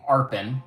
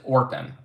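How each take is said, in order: First: The first vowel sounds like 'ar'. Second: The first vowel sounds like 'or'. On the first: "I keep wanting to say Arpin because of how it is" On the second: "you pronounce it Orpin, right? Almost like with an O"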